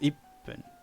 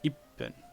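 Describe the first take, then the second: The two takes are said the same way.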